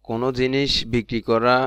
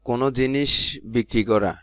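Both takes have the same delivery.

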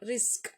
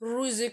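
First: The r is light, with the lips unrounded. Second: The r is heavy, with the lips rounded. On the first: The speaker calls it right. "ரிஸ்க் அப்படின்னு நம்ம ஓதுறோம்" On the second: The speaker calls it wrong. "ருசிக் அப்படின்னு வாயை குமிச்சு ஓதக்கூடாது, இது தப்பு"

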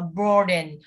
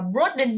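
First: The first vowel is long. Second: The first vowel is short. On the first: The speaker calls it right. "nó là o dài, đọc là broaden" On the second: The speaker calls it wrong. "không đọc là broaden nhé"

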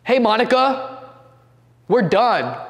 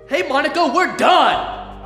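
First: It is said mildly, without force. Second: It is said forcefully and aggressively.

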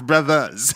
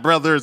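First: The ending is said as ah, without r. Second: The ending is said with an r sound. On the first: The speaker calls it right. "you drop the ER and add an A" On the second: The speaker calls it wrong. "It's not brothers"

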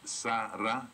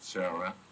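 First: The name is said the non-American way. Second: The name is said the American way. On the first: "but it's Sara means birth of Ra" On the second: "in America you pronounce it Sarah"

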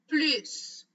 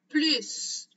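First: The word ends with an s sound. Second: The word ends with an s sound.

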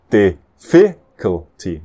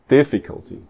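First: The stress is on the second syllable. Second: The stress is on the first syllable. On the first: The speaker calls it wrong. "Normalmente seria a terceira do fim" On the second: The speaker calls it right. "E só tem uma exceção dessa regra"

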